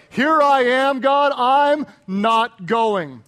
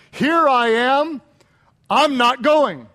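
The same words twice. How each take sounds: First: Loud, stretched-out refusal; mock Jonah. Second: Mock Jonah. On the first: Preacher voicing Jonah turning God down, drawn-out mock refusal. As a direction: drag out the refusal as stubborn Jonah. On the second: Preacher voicing Jonah's refusal.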